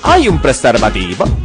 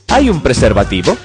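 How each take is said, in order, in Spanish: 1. Se dice con acento italiano. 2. Se dice con un acento español neutro.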